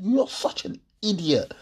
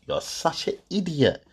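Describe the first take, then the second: First: Quoting the insult again. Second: Quoting the insult. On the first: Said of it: "that little word you just said". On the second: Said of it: "that little comment there". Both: Retold or imitated.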